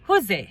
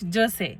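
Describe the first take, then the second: First: The name begins with an H sound. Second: The name begins with a J sound. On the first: This is how Spanish speakers here say it. "এরা সেটাকে বলে হোজে" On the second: This is the reading the speaker expected. "Not জোসে"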